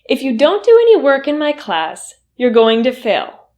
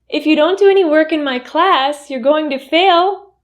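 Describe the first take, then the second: First: The voice falls at the end. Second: The voice rises at the end. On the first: It is a firm statement not open to discussion. The speaker calls it right. "my intonation went down? That falling intonation" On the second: The statement does not sound believable. The speaker calls it wrong. "with a rising intonation"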